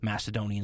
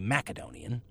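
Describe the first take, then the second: First: The middle consonant is a soft s sound. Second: The middle consonant is a hard k sound. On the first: This is the modern Western way of saying it. "the way we say it here in the modern West due to a softening" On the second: This is how people in the region say it. "You go back to the area, and they're all going to say Macedonian"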